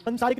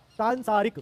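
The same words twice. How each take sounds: First: सांसारिक with brief "san"; wrong short first vowel. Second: सांसारिक with long nasal "saan"; correct long first vowel. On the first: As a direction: say सांसारिक as "sun-saa-rik", higher. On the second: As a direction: say सांसारिक as "saan-saa-rik". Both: Shown as a demonstration. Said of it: "सांसारिक नहीं होता".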